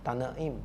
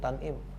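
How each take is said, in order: First: The word has an extra i vowel, three syllables. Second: The word lacks the i vowel, two syllables. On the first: The speaker calls it right. "Tanaim ada i-nya" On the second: The speaker calls it wrong.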